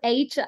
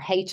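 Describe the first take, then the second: First: The letter is said the American way. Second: The letter is said the Irish way. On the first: "H as the Americans would say it" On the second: "H as I would say it, being from Ireland"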